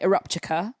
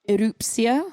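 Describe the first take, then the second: First: The word ends with a 'ptica' sound. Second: The word ends with a 'psia' sound. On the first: The speaker calls it wrong. "I was saying eruptica" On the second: The speaker calls it right. "I think you say erupsia"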